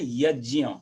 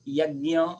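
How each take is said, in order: First: The cluster is said with a j and y sound. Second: The cluster is said with a g and y sound. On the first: This is the pure Sanskrit way of saying it. "Sanskrit के साथ शुद्ध है तो" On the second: This is the common northern way of saying it. "पूरे north में भी ... ऐसे बोलते हैं"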